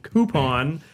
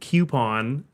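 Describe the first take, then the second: First: The first syllable sounds like the word coo. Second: The first syllable sounds like the letter Q.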